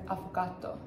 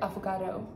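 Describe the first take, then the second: First: The word is said with an Italian-style accent. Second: The word is said with an English accent. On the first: The speaker calls it right. "I'm pretty sure it's like" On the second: The speaker calls it wrong. "I immediately put like a little English accent on it"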